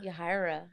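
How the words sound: The name has an English-style pronunciation.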